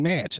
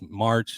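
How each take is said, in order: First: The r sound is dropped from the word. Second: The r sound is clearly pronounced in the word. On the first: The speaker calls it wrong. "Saint Patty's Day isn't match" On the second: The speaker calls it right. "No, it's March"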